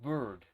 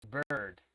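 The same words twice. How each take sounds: First: "bird" with a plain rounded vowel, as a learner's slip; wrong vowel in bird. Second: "bird" with a central, r-coloured er, falling; correct bird vowel. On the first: Teacher warning a student, mispronounced "bird" with the wrong vowel. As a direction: show the mistaken "bird", vowel off the central er. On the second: Teacher correcting a student, "bird" with a deep er vowel. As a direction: lower model "bird", vowel held deep in the mouth. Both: Shown as a demonstration. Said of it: "It's not bird".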